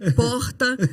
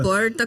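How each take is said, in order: First: It is said with a Belém do Pará accent. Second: It is said with another Brazilian regional accent. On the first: This is the speaker's own native way of saying it. "Dois, sim, porta" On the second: This is how the speaker's children say it. "E não porta, como meus filhos dizem"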